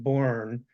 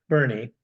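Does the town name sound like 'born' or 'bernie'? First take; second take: born; bernie. First: It is said with one syllable, like 'born'. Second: It is said with two syllables, like 'bernie'. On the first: This is how the name looks written. "They spell it Bourne" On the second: This is how local people say the name. "they pronounce it Bernie"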